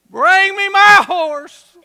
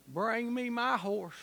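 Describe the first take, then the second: First: Slow, loud, high proclamation; booming command. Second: Quiet command. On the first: The general calls for his horse, booming shout. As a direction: shout it out like a king calling for battle. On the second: The general quietly calls for his horse, soft command. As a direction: say it softly, holding back. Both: Acted.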